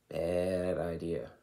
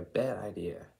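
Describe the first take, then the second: First: "Bad idea" drawn out slowly, weight on "Bad"; slow emphatic repeat. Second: Said in the usual way. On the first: Shown as a demonstration. Vlogger repeats warning to viewers, slow and emphatic.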